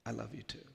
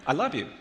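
First: Softly voiced, retold whisper; whispered, flawless. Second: Blurted out loud and high; insincere. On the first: Little boy hugging back, softly whispered reply. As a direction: say it softly and simply, without stumbling. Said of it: "he whispered flawlessly in my ear". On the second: Retold or imitated. Boy ordered by mom to say it, insincere. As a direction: get it over with in one loud burst. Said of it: "as insincerely as I possibly could".

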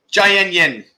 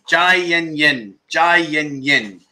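First: Said in the usual way. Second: "Jai Yen Yen" slowly, each syllable drawn out, falling on "Jai"; slow demo. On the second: Shown as a demonstration. Teacher modelling the Thai phrase for viewers, slow. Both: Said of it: "What does Jai Yen Yen mean?".

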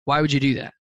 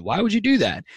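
First: Calm inquiry without accusation; curious why. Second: Sharp, high swooping accusatory question; accusing why. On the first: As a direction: ask it neutrally, wanting the reason. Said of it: "It's why as in". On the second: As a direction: ask it as an incredulous challenge. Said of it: "it's not why as in". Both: Shown as a demonstration.

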